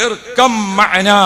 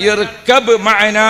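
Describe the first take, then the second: First: ഇർകം said slowly, the b slurred into m; ഇർകം with the b swallowed into an m; choked pronunciation. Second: ഇർകബ് said slowly with a clear b before മഅനാ; ഇർകബ് spelled out carefully, b sound kept; correct pronunciation. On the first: Preacher showing the prophet's choked ഇർകം slowly. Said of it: "മൂപ്പര് തൊണ്ട ഇടറിയിട്ട്". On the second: Preacher showing the correct Arabic ഇർകബ് slowly. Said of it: "ശരിക്കും പറയേണ്ടത് എങ്ങനെയാണ്?". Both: Shown as a demonstration.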